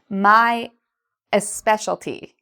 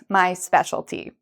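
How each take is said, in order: First: An extra vowel sound comes before 'specialty'. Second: No extra vowel sound comes before 'specialty'. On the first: The speaker calls it wrong. "I've added an E sound. That isn't actually there" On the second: The speaker calls it right. "in the actual spelling, it looks like this"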